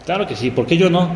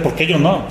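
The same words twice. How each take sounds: First: Upbeat, higher eager yes; keen and willing. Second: Said in the usual way. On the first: Shown as a demonstration. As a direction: say it like you can't wait. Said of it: "cambiar la respuesta". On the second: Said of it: "la pregunta debe ser".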